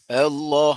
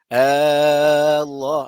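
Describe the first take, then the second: First: The first vowel is short; the lam is long. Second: The first vowel is drawn out long. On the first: It is a plain statement about God. "Yang pasti panjang pun lam tu" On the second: It turns the statement into a question. "tu jangan panjang. ... tu jadi isu besar"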